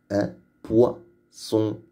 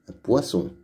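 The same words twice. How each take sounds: First: "Un poisson" slowly, with pauses: un, poi, son; syllabes détachées. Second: Said in the usual way. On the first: Shown as a demonstration. Teacher splits word, then repeats normally. (« poisson » dit lentement, en séparant poi et son)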